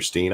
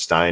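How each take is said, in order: First: The vowel sounds like 'ee'. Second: The vowel sounds like 'eye'. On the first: "or Steen" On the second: "that's Stein"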